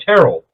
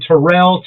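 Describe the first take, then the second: First: "Terrell" with the stress on the first syllable; name said correctly. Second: "Terrell" with the stress moved to the end; name mispronounced. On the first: Retold or imitated. Bartender reads his name off the card, correctly pronounced. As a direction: say "Terrell" stressed up front, TERR-ul. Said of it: "ever said my name right". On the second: Shown as a demonstration. Man shows how people botch his name, mispronounced. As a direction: say "Terrell" as tuh-RELL. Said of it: "nobody ever says my first name right".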